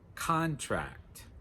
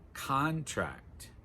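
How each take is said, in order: First: The stress is on the first syllable. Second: The same.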